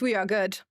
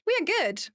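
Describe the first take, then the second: First: Said in the usual way. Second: "We are good" repeated high and bright; high happy echo. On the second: Real, not acted. Streamer reassuring chat, repeating "We are good" high and gleeful.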